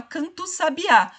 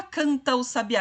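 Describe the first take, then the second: First: "canta o sabiá" fused as "cantu sabiá"; com elisão. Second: "canta o sabiá" with both vowels kept, "canta-u"; sem elisão. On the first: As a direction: drop the A of canta, gliding straight into "cantu" in "canta o sabiá". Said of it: "a gente fala". ("canta o sabiá" emendado, "cantu sabiá") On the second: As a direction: keep the A of canta before the O in "canta o sabiá". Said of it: "A gente não fala". ("canta o sabiá" sem juntar o A com o O) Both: Shown as a demonstration.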